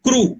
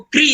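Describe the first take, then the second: First: The syllable ends with an 'oo' vowel. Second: The syllable ends with an 'ee' vowel. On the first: This is how southern speakers say it. "Telugu में जो लोग बोलते हैं वो बोलते हैं क्रू" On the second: This is how northern speakers say it. "उत्तर में जो बोलते हैं उनको क्री आता है"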